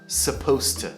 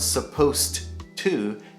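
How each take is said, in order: First: The D before 'to' is almost silent. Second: The D before 'to' is clearly pronounced. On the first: The speaker calls it right. "it's more of a supposed to. The D at the end is almost silent" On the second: The speaker calls it wrong. "the accent is not supposed to"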